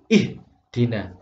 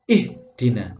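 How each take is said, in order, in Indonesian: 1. Suaranya terputus tiba-tiba di h. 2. Suaranya terputus tiba-tiba di h.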